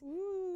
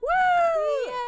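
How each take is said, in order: First: It is said flatly, with little energy. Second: It is said loudly, with lots of energy.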